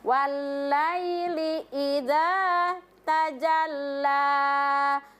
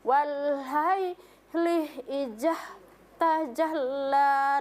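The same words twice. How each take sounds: First: The letters are voiced clearly without extra breath. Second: The voiced letters are read with audible breath. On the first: The speaker calls it right. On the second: The speaker calls it wrong.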